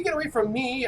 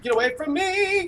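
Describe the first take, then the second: First: Raised, less shrill panicked cry; panicked yell. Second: High, sing-song panicked wail; panicked shriek. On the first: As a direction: yell it, still scared but steadier. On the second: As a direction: squeal it out in mock terror. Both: Pretend. Fleeing a Wendigo in panic.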